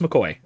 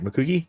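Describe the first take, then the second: First: The name ends with an 'oy' sound. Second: The name ends with an 'ee' sound. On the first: The speaker calls it right. "no, it's it's it's just McCoy" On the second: The speaker calls it wrong. "I know that's that's common"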